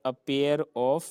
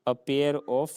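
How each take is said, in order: Both takes have the same delivery.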